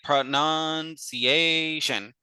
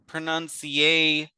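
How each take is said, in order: First: The last syllable has a relaxed, reduced vowel. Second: The last syllable has a full, clear vowel. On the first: The speaker calls it right. "we just say" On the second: The speaker calls it wrong. "we don't want to say"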